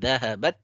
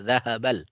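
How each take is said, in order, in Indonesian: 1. Bunyi L menyatu menjadi bunyi T yang dobel. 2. Artikel tetap terdengar jelas sebagai bunyi L. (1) "tapi dahabat" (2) "jangan dibaca dahabal"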